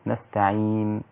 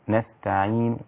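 First: The final n stops with no vowel at all. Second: The final n ends with a faint u-vowel. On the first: "الأصل في الوقف السكون المحض المجرد، نستعين هكذا" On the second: "الروم هو أن تأتي ببعض الحركة"

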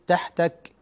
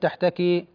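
First: The word ends on a bare consonant. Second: The word ends with a short i vowel. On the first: The speaker calls it right. "لا بد أن تقف بالسكون" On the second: The speaker calls it wrong. "لا تقول تحتكي"

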